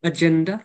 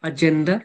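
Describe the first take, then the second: The two takes are said the same way.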